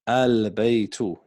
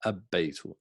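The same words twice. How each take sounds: First: Al-baytu slow, l clearly sounded; slow model reading. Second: Abbaytu with a doubled b and no l, said softly; Abbaytu, l dropped into a doubled b; wrong form shown. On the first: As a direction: say Al-baytu slowly, keeping the l. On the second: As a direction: say Abbaytu as the mistake. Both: Shown as a demonstration. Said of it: "not abba".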